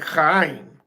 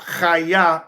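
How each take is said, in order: First: The word ends in an M sound. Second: The word ends in an open vowel. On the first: This is the modern form of the word. "they pronounce it in a modern chaim" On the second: This is the ancient form of the word. "chaya in the ancient Paleo Hebrew"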